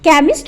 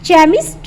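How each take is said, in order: First: The word begins with a 'k' sound. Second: The word begins with a 'ch' sound. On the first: The speaker calls it right. "इसको हम केमिस्ट बोलेंगे" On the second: The speaker calls it wrong. "इसको हम चेमिस्ट नहीं बोलेंगे"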